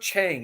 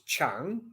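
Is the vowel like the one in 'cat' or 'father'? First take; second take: cat; father. First: The vowel sounds like the one in 'cat'. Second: The vowel sounds like the one in 'father'. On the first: The speaker calls it wrong. "it's not Chang" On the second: The speaker calls it right. "the A in um, Thai language is pronounced the same as in the Italian alphabet"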